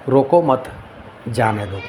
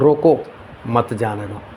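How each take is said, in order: First: The pause comes after the word 'mat'. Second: The pause comes after the word 'roko'. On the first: Do not stop him, let him go. "उसको रोकना नहीं, जाने दो उसको।" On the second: Stop him, do not let him go. "रोको मतलब इसको रोक लो, जाने मत दो।"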